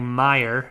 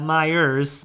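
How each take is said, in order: First: The name ends without an s sound. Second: The name ends with an added s sound. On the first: The speaker calls it right. "not Myers, the Michigan possessive S" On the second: The speaker calls it wrong. "the Michigan possessive S. That is not Myers"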